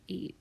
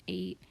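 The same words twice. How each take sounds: The two takes are said the same way.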